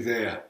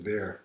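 First: "there" as Maine "they-ah"; "there" ending in an open "ah"; R dropped in there. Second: "there" with a clear final R; R sounded in there. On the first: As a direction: leave the R off "there". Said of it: "it should be". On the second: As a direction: pronounce the R at the end of "there". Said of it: "See, I said". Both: Shown as a demonstration.

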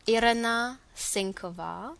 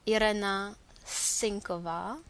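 Both takes have the same delivery.

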